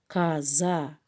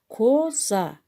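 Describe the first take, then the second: First: The first vowel sounds like 'a'. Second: The first vowel is a clear 'o'. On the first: This is how the word is actually spoken. "каза деп айтабыз" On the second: This is how the word is written. "коза деп жазабыз"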